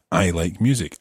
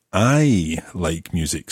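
First: Said in the usual way. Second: I said slow and leaned on; stress on I. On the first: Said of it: "Well, as for me". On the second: Shown as a demonstration. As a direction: lean on the word I, slowly. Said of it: "stressing the I".

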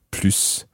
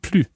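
First: "plus" ending in an audible hissed S; sounded final S. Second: "plus" ending on the vowel, no S; silent final S. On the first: Teacher contrasting two readings, "plus" with the S sounded. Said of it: "there's a difference between plus". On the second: Teacher contrasting two readings, "plus" with silent S. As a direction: leave the S of "plus" unspoken. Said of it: "because of the S being silent". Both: Shown as a demonstration.

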